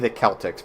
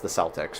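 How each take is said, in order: First: Celtics begins with a hard K sound. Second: Celtics begins with a soft S sound. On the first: This is how the name ought to sound. The speaker calls it right. "They should be the Celtics" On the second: This is how the team's name is actually said. The speaker calls it wrong. "they are apparently pronounced the Celtics, which which is annoying. That's wrong"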